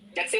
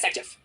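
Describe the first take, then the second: First: The name begins with a z sound. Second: The name begins with an s sound. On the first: This follows the written spelling. "जेटसेफ लिखा जाता है" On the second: This is how it is actually spoken. "बोला जाता है सेटजेस"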